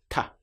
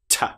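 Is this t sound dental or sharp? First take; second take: dental; sharp. First: A soft t with the tongue behind the teeth. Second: A sharp t made with the teeth together. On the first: "with the tongue up behind the front teeth and the teeth apart" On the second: "typically recognised as being very British"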